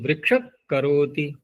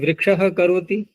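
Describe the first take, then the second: First: A k-like sound comes before karoti. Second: A breathy h sound comes before karoti. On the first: "जब जिह्वामूलीय आदेश कर लिया तो ... आधे ककार के समान" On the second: "विसर्जनीय तो ऐसे ही रहेगा"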